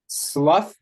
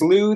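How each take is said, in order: First: The word ends with an 'uff' sound. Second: The word ends with an 'oo' vowel. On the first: "then it rhymes with rough" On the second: "then it rhymes with oozy, or at least it has the assonance"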